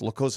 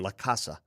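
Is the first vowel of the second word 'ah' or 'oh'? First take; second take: oh; ah. First: The second word has an 'oh' vowel first. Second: The second word has an 'ah' vowel first. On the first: The speaker calls it right. "It's La Cosa Nostra" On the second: The speaker calls it wrong. "He kept saying La Casa"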